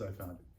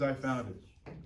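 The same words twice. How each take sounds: First: Fran's claim said lower and softer; quieter, lower rival claim. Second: Said in the usual way. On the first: Retold or imitated. Fran's rival claim voiced in court.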